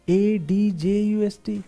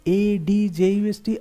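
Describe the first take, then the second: The two takes are said the same way.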